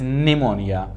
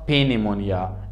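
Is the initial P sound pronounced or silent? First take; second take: silent; pronounced. First: The word begins with an N sound, no P. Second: The word begins with an audible P sound. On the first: The speaker calls it right. "It is pneumonia" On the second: The speaker calls it wrong. "It is not pneumonia"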